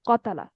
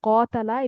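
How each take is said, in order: First: The word is said quickly with short vowels. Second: The vowel is drawn out and lengthened. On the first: The speaker calls it wrong. "অনেক দ্রুত হয়ে গেছে আর কি।" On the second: The speaker calls it right. "একটু লম্বা হবে।"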